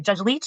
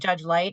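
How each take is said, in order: First: The name ends with a 'ch' sound. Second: The name ends with a 't' sound. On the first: The speaker calls it right. "we pronounce it Leach" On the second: The speaker calls it wrong. "or sorry"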